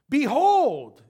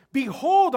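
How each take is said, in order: First: Loud, high proclaiming "behold"; "behold" thrown out like a wake up shout; wake-up call. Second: Loud, high proclaiming "Behold"; "Behold" called out high and loud; wake-up call. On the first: Preacher calling the church to wake up, loud "behold". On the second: Preacher urging listeners to look, loud call. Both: Shown as a demonstration. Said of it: "behold is kinda like wake up".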